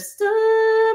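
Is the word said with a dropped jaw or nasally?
nasally. The word sounds nasal with a high, closed mouth. The speaker calls it wrong. "instead of stop"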